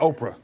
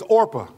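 First: The r sound comes after the p. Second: The r sound comes before the p. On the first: The speaker calls it wrong. "Don't say Oprah" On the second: The speaker calls it right. "Her name was Orpah"

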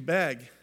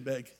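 First: The vowel sounds like the a in bag. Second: The vowel sounds like the e in bed. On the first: The speaker calls it wrong. "if you're from Minnesota, you say bag" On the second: The speaker calls it right. "You don't say beg"

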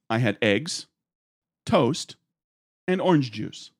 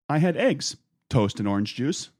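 First: There is a pause before "and orange juice". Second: There is no pause before "and orange juice".

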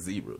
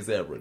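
First: The word is pronounced the American way. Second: The word is pronounced the non-American way. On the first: "why Americans say zebra" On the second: "well, I'm say zebra then"

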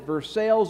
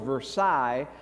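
First: Versailles is said with an Anglicized pronunciation. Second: Versailles is said with a French pronunciation.

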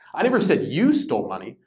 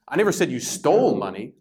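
First: The stress is on the word you. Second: The stress is on the word stole.

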